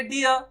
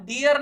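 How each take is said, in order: First: डियर as "di-yuh", r silent; recommended pronunciation. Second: First डियर with a sounded final r; pronunciation to avoid. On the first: Teacher giving the better form, डियर without r. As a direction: let डियर end on a vowel. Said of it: "ऐसा बोल दीजिए". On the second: Teacher showing what not to say, डियर with full r. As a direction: say डियर as "di-yar". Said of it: "नहीं बोल करके". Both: Shown as a demonstration.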